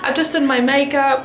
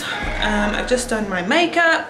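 First: It is spoken in the speaker's usual accent. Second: It is spoken in a British accent.

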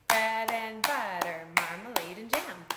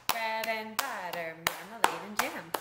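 No difference in how they are said.

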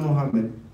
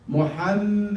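First: The middle m is short and not held. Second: The middle m is held long. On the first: The speaker calls it wrong. "It's not Muhammad" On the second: The speaker calls it right. "and you hold them M"

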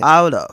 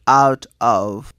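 First: The two words are linked together. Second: The two words are said separately. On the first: "I link it, I connect and I say out of" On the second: "instead of saying out of"

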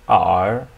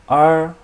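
First: The pitch dips low, then rises. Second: The pitch stays high and level.

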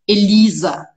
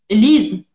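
First: The name ends with a full final vowel. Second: The name's final vowel is cut off. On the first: The speaker calls it right. "Ela não fala Elisa" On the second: The speaker calls it wrong. "meio que ela corta o A. Então fica Elise"

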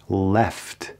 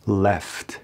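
Both takes have the same delivery.

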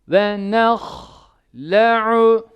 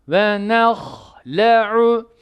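Both takes have the same delivery.

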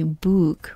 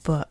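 First: The vowel is a long oo sound. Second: The vowel is a short uh sound. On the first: The speaker calls it wrong. "we don't say book" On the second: The speaker calls it right. "the best example is like the word book"

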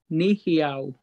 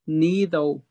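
First: It is said in the southern dialect form. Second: It is said in the speaker's own dialect form. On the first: This is how the southern dialect names the language. "South is a wide dialect, and they say Nēhithaw" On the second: This is how the speaker's own dialect names the language. "I would pronounce it Nēhithaw"

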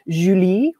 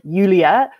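First: The name is said with a French accent. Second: The name is said with a Danish accent. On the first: "if it's in French, it's a nice Julie" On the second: "In Danish, it's more like Julia"

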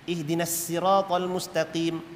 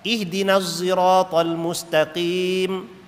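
First: Sirat begins with a light plain s sound. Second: Sirat begins with a voiced z-like sound. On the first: "dengan sin" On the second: "Ada yang baca dengan Zah"

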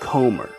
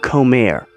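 First: The name is said with English vowels. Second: The name is said with Spanish vowels.

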